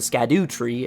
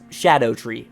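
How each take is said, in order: First: The name starts with sk and sounds like skadoo. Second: The name starts with sh and sounds like shadow. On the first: The speaker calls it wrong. "nor is it the Skadu tree" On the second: The speaker calls it right. "it's Shadow tree"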